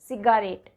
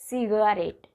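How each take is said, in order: First: A full vowel is sounded between g and r. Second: The same.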